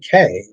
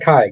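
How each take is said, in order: First: The syllable rhymes with 'day'. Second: The syllable rhymes with 'eye'. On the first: The speaker calls it right. "K, not Kai" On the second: The speaker calls it wrong. "not Kai"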